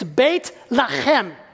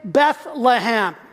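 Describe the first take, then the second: First: It has a Hebrew pronunciation with a throaty sound. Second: It has the usual English pronunciation.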